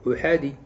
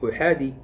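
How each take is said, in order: No difference in how they are said.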